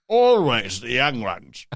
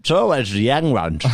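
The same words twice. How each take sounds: First: Slow, drawn-out mock lament; hammed-up lament. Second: Mild mock tut-tutting; mock lament. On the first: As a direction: stretch each word out for the joke. Hams up the repeated line. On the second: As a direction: toss it off as a jokey lament. Repeats a line as a bit.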